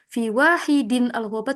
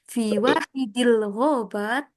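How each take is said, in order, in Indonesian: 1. Wahid berakhir dengan -in, lalu al terpisah. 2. Wahid berakhir dengan -il, menyambung ke ghobat. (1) "nggak boleh dibaca" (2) "tapi fi wahidil ghobat seperti itu"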